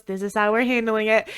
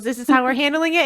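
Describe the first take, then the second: First: Said in the usual way. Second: "This is how we're handling it?" as a quick question. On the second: Retold or imitated. Frank questions the drinking, "This is how we're handling it?" questioning. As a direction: ask "This is how we're handling it?" with mild disbelief.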